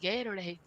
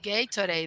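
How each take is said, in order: First: The t is a soft American flap. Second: The t is a crisp, clear t.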